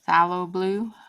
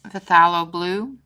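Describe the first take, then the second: First: The opening P sound is left silent. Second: The opening P sound is pronounced. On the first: The speaker calls it right. "the P is, is silent" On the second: The speaker calls it wrong. "I know I pronounced that wrong"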